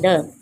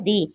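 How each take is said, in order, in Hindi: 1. स्वर छोटी 'uh' आवाज़ है। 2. स्वर लंबी 'ee' आवाज़ है। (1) "it इज pronounced as द" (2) "it इज़ pronounced as दी"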